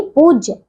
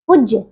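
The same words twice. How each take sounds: First: Said in the usual way. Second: पूज्य with a short u, "pujya"; mispronounced पूज्य. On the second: Shown as a demonstration. Teacher shows pupils the error, short "pu" in पूज्य. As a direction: cut the vowel of पूज्य short. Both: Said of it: "नहीं".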